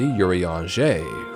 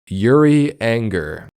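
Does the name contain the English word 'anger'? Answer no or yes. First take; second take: no; yes. First: The name is said without an English 'anger' sound. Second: The name is said with the English word 'anger'. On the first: The speaker calls it right. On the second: The speaker calls it wrong.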